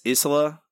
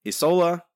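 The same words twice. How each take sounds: First: Isola said "EE-suh-luh", short o; Isola said one way. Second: Isola said "ee-SOH-luh", long o; Isola said the other way. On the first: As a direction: Isola with a short middle vowel. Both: Shown as a demonstration. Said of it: "I still don't know how to say this".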